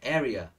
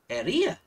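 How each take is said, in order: First: The stress is on the first syllable. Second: The stress is on a later syllable. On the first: The speaker calls it right. "Nhớ là the stress is in the first one" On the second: The speaker calls it wrong. "Nhưng mà mình đôi khi chúng ta đọc thành area"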